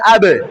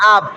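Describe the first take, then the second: First: The final b is released with a slight bounce. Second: The final b is stopped without any bounce. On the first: The speaker calls it right. "কলকলা পড়লে হবে আবে" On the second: The speaker calls it wrong. "বায়ে সাকিন হলে হবে আব"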